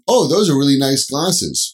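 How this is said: It sounds genuine and complimentary.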